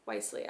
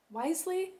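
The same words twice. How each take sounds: First: "Wisely." said low and soft with a firm falling tune; settled fall. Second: "Wisely?" tried with a rising question tune; testing "Wisely?" as if unsure how to say it; questioning rise. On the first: Vlogger settling the word, low and soft. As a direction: close "Wisely." down, quiet and final. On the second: Vlogger unsure of a word, rising on it. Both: Shown as a demonstration. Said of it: "I'm having a hard time".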